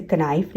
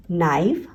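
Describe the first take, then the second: First: कनाइफ with an audible K before the N; the silent K voiced in कनाइफ; K wrongly sounded. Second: नाइफ starting straight on the N sound; K dropped from नाइफ; silent K. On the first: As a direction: misread it as कनाइफ, K and all. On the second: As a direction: say नाइफ with no K at the front. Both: Shown as a demonstration. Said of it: "हम इसे कनाइफ नहीं पढ़ रहे".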